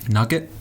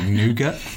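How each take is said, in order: First: The word is said like nugget. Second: The word is not said like nugget. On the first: "or as some people say, nugget" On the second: "It's like nougat"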